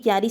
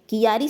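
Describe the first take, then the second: First: The start is one syllable, kya. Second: The start is split into two syllables, ki-ya. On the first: The speaker calls it right. "क्यारी शब्द क्या है, शुद्ध है" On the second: The speaker calls it wrong. "कियारी शब्द क्या है, अशुद्ध है"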